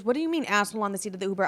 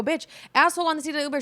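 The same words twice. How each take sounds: First: Quick puzzled question from a friend; confused friend. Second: Fast, higher, hitting asshole hard; exasperated insisting. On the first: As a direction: ask it fast, baffled, repeating her words back. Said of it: "She goes". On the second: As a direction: repeat it like she should have understood the first time. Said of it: "I go". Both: Retold or imitated.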